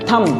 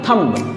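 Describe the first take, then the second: First: The word ends on 'm' with no 'b'. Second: The word ends with an audible 'b' sound. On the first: The speaker calls it right. "बी आपका इसमें silent है" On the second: The speaker calls it wrong. "ना कि थंब"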